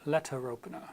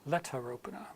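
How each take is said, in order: First: It is said in a British accent. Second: It is said in a British accent.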